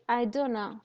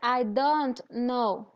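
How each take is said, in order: First: "Don't know" is shortened, dropping a sound. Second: Every sound of "don't know" is said. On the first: The speaker calls it right. "You say I do know" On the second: The speaker calls it wrong. "You don't say I don't know"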